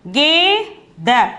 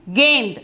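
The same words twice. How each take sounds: First: "Ge, da" as two separate syllables; letter by letter. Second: "gained" as one syllable with n before d; joined-up pronunciation. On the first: Teacher reads the written letters, "Ge, da" kept apart. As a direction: sound out "Ge, da" with a long first syllable. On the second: Teacher models the word for ball, "gained" in one syllable. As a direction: blend it into "gained", no final a. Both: Shown as a demonstration. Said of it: "the word is gained".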